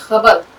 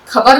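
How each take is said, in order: First: It begins with a throaty, friction-like kh sound. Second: It begins with a plain aspirated k sound. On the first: The speaker calls it right. "खे की आवाज अगर आप सही निकालते हैं" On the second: The speaker calls it wrong. "खबर नहीं होना चाहिए"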